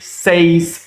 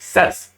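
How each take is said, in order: First: The vowel matches the vowel of 'say'. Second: The vowel differs from the vowel of 'say'. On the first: The speaker calls it wrong. "अगर से की pronunciation यूं है जैसे मैं कह रहा हूं से, ... तो इसकी प्रोनाउंसिएशन होनी चाहिए सेज" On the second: The speaker calls it right. "अहले जुबान ... दूसरे वाले को सेस पढ़ते हैं"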